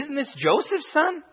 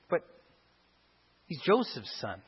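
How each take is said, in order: First: It is said with a positive, admiring attitude. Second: It is said with a neutral, matter-of-fact attitude.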